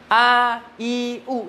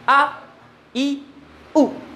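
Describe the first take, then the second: First: Each vowel is drawn out with trailing breath. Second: Each vowel is one short abrupt stroke. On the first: The speaker calls it wrong. "ini salah kalau kajian tartil" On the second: The speaker calls it right. "terus bunyikan satu kali hentakan, nafas ditahan"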